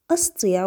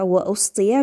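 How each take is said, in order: First: أسطيع opening on a short "a", as in "asti'"; hamza with fatha. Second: أسطيع after وَ opening on a short "u", as in "wa-usti'"; hamza with damma. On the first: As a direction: say أسطيع with an a-vowel on the first hamza. (أسطيع بفتح الهمزة) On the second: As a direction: say وأسطيع with a u-vowel on the hamza. (وأسطيع بضم الهمزة) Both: Shown as a demonstration. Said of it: "بفتح الهمزة وضمها".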